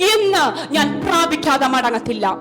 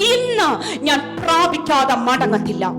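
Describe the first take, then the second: Both takes have the same delivery.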